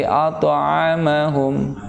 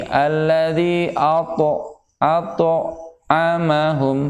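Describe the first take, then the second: First: "at'amahum" with a light to flowing straight into the next letter; slow "at'amahum", the to smooth and unbroken; "at'amahum" said gently and joined, no extra bounce; correct qalqalah sugro. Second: "Alladzi ato-, at'amahum" with the to of "ato-" bounced as a separate stop; slow, broken "ato-" with a jolt on the to; "ato-" chopped apart by a hard qalqalah bounce; wrong qalqalah. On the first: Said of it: "Tapi at'amahum". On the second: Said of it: "jangan dibaca begini". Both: Shown as a demonstration.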